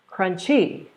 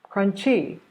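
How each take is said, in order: Both takes have the same delivery.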